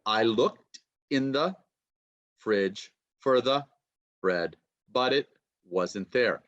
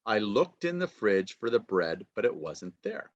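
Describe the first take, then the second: First: "looked", "fridge", "bread" long, broken apart by pauses; stressed content words. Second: "looked", "fridge", "bread" stressed in one connected flow; natural sentence stress. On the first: Teacher demonstrating sentence stress to students, chunked and deliberate. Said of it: "blue is said quickly". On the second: Teacher repeating the example at natural rhythm, connected stress. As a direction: run "in the" and "for the" quickly between stressed words. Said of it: "longer and a little more loudly". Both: Shown as a demonstration.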